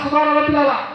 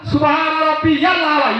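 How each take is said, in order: First: It is said as 'rabbil' without a 'ya' sound. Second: It is said as 'rabbiyal' with a 'ya' sound. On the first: The speaker calls it wrong. "ইয়ালটা বলে না অনেকেই" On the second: The speaker calls it right. "শুদ্ধভাবে বলতে হবে"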